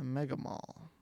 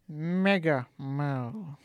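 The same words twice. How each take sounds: First: It is said in the speaker's normal voice. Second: It is said in a put-on villain character voice.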